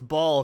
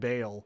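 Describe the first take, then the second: First: The vowel sounds like the one in ball. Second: The vowel sounds like the one in bail. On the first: The speaker calls it wrong. "it's ball because it sounds like diabolical" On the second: The speaker calls it right. "It's fucking Bale"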